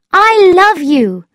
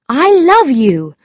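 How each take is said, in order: First: Very high, slow, loud declaration; Thetis's declaration. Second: Higher, louder, emphatic love declaration; earnest storybook suitor; Lord Struve's declaration. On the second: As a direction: declare it firmly as the man in the story. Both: A narrator's reading.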